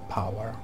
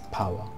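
First: It is said with a final r sound. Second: It is said without a final r sound. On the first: "And Americans say power" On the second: "They don't say R, so it's power"

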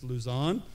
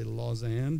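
First: The name is said to sound like Luzon. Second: The name is said to sound like Lausanne. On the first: This is what the organizers call it. "but it's Luzon" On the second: This follows the spelling. "The way it's spelled, I say Lausanne"

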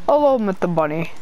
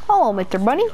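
First: It is said in a rough Russian-like accent. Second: It is said in a whiny cartoon child voice. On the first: "sort of like Russian, but I can't do it really" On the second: "like a Jeffy voice"

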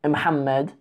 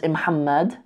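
First: The name starts with a short i sound. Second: The same.

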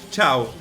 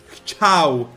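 First: The h-like sound at the start is dropped. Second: The h-like sound at the start is heard. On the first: The speaker calls it wrong. "bo ja mówię chciał" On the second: The speaker calls it right. "A powinienem mówić chciał. Nie daję tego H"

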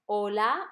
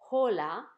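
First: The word begins directly with the vowel, no H. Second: The word begins with an audible breathy H sound. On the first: The speaker calls it right. "ich sage hola ... weil das H auf Spanisch nicht klingt" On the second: The speaker calls it wrong. "und nicht hola"

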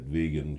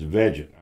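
First: The g is a hard g sound. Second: The g is a soft j sound. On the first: The speaker calls it wrong. "I don't want to hear all that other that vegan shit" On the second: The speaker calls it right. "that's the correct pronunciation"

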